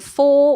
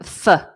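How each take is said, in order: First: The vowel is said fully as a strong form. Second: The vowel is reduced to a short weak sound. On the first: "rather than for" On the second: "a weak form"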